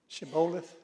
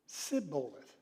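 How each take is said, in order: First: The word begins with an sh sound. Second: The word begins with an s sound. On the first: The speaker calls it right. "ever how you pronounce that word?" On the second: The speaker calls it wrong. "They couldn't pronounce it"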